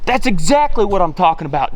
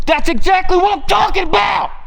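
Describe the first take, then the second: First: Said in the usual way. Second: High, shouted victory cry; triumphant shout. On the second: Real, not acted. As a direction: yell it out in triumph. Hunter celebrates a kill.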